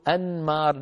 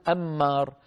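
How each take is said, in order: First: أنمار as an-maar, distinct N before the M; clear unmerged noon. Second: أمار as am-maar, a doubled M and no N; wrongly merged noon. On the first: Teacher contrasts two names, clear N in أنمار. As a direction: sound the N fully in أنمار. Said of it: "سميناه أنمار بالنون". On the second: Teacher shows the forbidden merging, أمار with double M. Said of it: "النون في الميم نقول أمار". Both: Shown as a demonstration.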